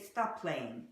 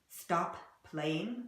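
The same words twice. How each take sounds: First: The two P sounds merge into one. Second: Both P sounds are pronounced separately. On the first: The speaker calls it right. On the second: The speaker calls it wrong.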